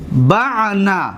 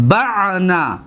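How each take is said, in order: First: بعنا stretched very slowly with a falling end; بعنا said slowly, syllable by syllable; slow demo. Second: Said in the usual way. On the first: Shown as a demonstration. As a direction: draw out بعنا for students to copy. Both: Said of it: "ببینید،".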